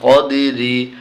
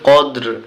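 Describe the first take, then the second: First: The word ends with a short i vowel. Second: The word ends on a consonant, vowel dropped. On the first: The reading continues without stopping. "রজের রি, কদেরি" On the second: The reading stops at this word. "যখন আমরা থেমে যাব, অক্ফ করব, তখন উচ্চারণ হবে কদ্র"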